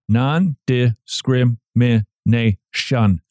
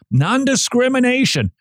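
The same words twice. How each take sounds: First: Non-discrimination drawn out slowly, syllable by syllable; Non-discrimination stretched, each beat counted. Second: Word jumps up high then falls; Non-discrimination said high, falling fast; quick high read. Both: Shown as a demonstration. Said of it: "Six syllables".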